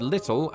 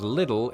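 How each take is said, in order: First: "little" with a true T in the middle; "little" pronounced with T, not D; T sounded. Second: "little" with the T flapped to a D; T-flapping. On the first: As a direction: say "little" with the T unflapped. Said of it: "British YouTubers I've heard recently pronouncing". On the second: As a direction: say "little" like "liddle". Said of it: "T-flapping has popped up a lot". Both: Shown as a demonstration.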